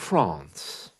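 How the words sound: The vowel is a broad, open 'ah' sound. "you can hear the ah sound there"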